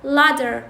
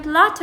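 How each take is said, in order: First: Ladder said for latter, t turned to d; American flap. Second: Latter with its t kept; unflapped t. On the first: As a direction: tap a d in ladder. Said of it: "راح يلفظوها". (لفظ ladder بدال مكان التاء) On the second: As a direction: say latter with a real t. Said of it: "ايش راح يلفظوها بالأمريكي". (لفظ latter بالتاء) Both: Shown as a demonstration.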